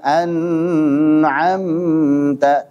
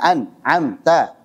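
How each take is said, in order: First: The first syllable is held far too long. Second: The sound stops abruptly after the first syllable. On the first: "Jangan pula terlalu panjang" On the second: "Jangan diputus aliran suaranya"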